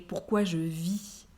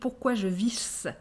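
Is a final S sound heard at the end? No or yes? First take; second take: no; yes. First: The word ends on the vowel, no S. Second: The word ends with an audible S sound. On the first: The speaker calls it right. "without the S" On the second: The speaker calls it wrong. "He's pronouncing the S at the end"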